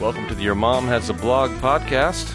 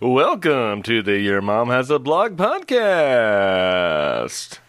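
First: It is said in a plain, ordinary speaking voice. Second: It is said in a big, over-the-top announcer voice. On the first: The speaker calls it right. "how did I do on that intro?" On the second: The speaker calls it wrong. "I wanted to come in with a real strong radio voice"

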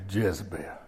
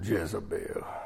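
First: The name is said plainly, without feeling. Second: The name is drawn out with dramatic disapproval. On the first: The speaker calls it wrong. "You can't just say Jezebel" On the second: The speaker calls it right. "You got to say it like that"

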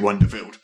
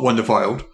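First: The name ends with the sound 'field'. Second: The name ends with the sound 'filed'. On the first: The speaker calls it right. "say Wonderfield" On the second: The speaker calls it wrong. "not Wonderfiled"

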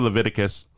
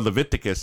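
First: The word is said in a plain, ordinary way. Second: The word is said in a playful, fun way.

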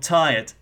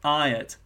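First: The t sound at the start is pronounced. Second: The t sound at the start is dropped.

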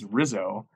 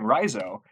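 First: The stress is on the second syllable. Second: The stress is on the first syllable. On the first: The speaker calls it right. "we listened back to the TV broadcast, and it's Rizzo" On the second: The speaker calls it wrong. "it was R-I, capital, and then Zo. So I was going Rizzo"

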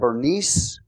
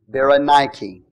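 First: The name is said with two syllables. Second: The name is said with four syllables. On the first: The speaker calls it wrong. "you might say Bernice or Bernice" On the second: The speaker calls it right. "but really it's Berenike"

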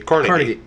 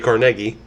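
First: It is said the New York way. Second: It is said the local western Pennsylvania way. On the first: "And New York accents say Carnegie" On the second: "I think our accents say Carnegie"

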